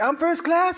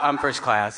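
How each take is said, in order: First: It is said boldly and clearly. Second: It is mumbled quietly and sheepishly. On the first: The speaker asserts a right to be there. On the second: The speaker feels out of place.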